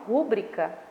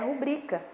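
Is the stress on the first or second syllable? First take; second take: first; second. First: The stress is on the first syllable. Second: The stress is on the second syllable. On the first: The speaker calls it wrong. "A maioria das pessoas falam rúbrica" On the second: The speaker calls it right. "mas o certo é rubrica / a sílaba tônica é no bri"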